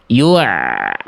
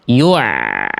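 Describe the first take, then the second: The two takes are said the same way.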